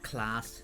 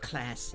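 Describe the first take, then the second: First: It is said in a non-American accent. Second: It is said in an American accent. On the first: "instead of" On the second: "if you go to the U S, you would say"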